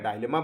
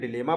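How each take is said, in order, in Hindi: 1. पहला अक्षर 'dye' की तरह बोला जाता है। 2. पहला अक्षर 'dih' की तरह बोला जाता है। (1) "या डायलेमा बोले" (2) "डिलेमा बोले"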